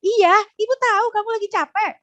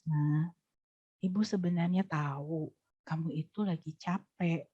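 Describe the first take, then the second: First: Much higher, louder and quick; high-pitched rushed version that doesn't land; high fast voice. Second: Put-on low serious voice to a tired child; low inward voice. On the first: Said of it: "Dia nggak, nggak nyentuh". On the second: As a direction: lower and much softer. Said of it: "rendah kan suaranya". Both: Shown as a demonstration.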